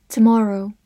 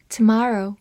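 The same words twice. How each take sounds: First: "tomorrow" with a rounded British short o; British "tomorrow", lips rounded on the stressed vowel; British-style pronunciation. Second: "tomorrow" with an open American "ah" in the middle; American "tomorrow", stressed vowel unrounded; American pronunciation. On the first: 美式发音tomorrow. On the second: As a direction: say "tomorrow" the American way, like "tuh-MAH-roh". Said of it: "美式发音". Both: Shown as a demonstration.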